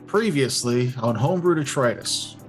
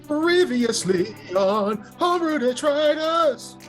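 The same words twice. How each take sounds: First: It is said with plain, low energy. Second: It is said with more oomph and energy.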